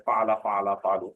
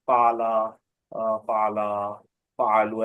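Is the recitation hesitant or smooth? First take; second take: smooth; hesitant. First: The forms flow smoothly without hesitation. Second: The forms break with a hesitant filler pause. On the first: The speaker calls it right. "ऐसा सुनाना आप लोग।" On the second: The speaker calls it wrong. "ऐसा नहीं सुनाना"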